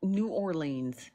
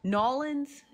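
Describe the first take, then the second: First: "New Orleans" slowly, as two separate words; pronounced as spelled. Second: "Nolans" run together as two syllables, pitched high; mock the slurred local way of saying "Nolans"; regional pronunciation. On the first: Correcting viewers on the two-word city, "New Orleans" as spelled. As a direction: sound out "New" and "Orleans" fully. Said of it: "That is how it is spelled". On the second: Correcting viewers on how to say the city, mock regional "Nolans". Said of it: "We not gonna say it with no Creole". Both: Shown as a demonstration.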